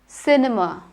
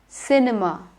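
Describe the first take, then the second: The two takes are said the same way.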